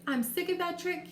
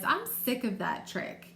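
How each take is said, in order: First: It is said in a cheerful, happy tone. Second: It is said in an annoyed, sour tone. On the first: The speaker is not bothered by the trick. The speaker calls it wrong. "I didn't say, ... Why would I not sound happy?" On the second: The speaker is fed up with the trick. The speaker calls it right. "why would you think I would read it like that?"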